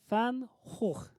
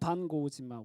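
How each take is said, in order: First: The name is said with throaty h sounds. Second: The name is said with a hard g sound. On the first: "원래는" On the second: "영어로 하면"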